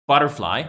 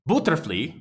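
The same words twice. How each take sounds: First: Said in the usual way. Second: "butterfly" said as "booterflee"; wrong-vowel "butterfly", booter-flee; mispronunciation. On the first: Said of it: "all these three are fine". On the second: Shown as a demonstration. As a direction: say "butterfly" with an oo first and "flee" last. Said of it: "that's not correct".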